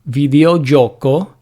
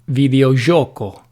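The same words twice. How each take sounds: First: The 'gi' sounds like the 'j' in 'judge'. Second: The 'gi' sounds like the soft 's' in 'measure'. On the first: This is the standard pronunciation. "the first pronunciation with j is considered standard" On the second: This is an accepted alternative pronunciation. "or the French J, je"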